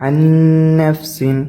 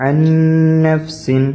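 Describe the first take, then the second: No difference in how they are said.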